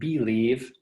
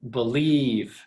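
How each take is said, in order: First: The stress is on the first syllable. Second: The stress is on the second syllable. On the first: The speaker calls it wrong. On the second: The speaker calls it right.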